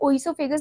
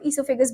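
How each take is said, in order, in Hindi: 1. शब्द की शुरुआत 'oh' ध्वनि से होती है। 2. शब्द की शुरुआत 'ee' ध्वनि से होती है। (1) "कभी भी आप इसे ओइसोफेगस नहीं बोलोगे, इसमें ओ जो है वो साइलेंट है" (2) "तो इसे हम ईसोफेगस बोलते हैं"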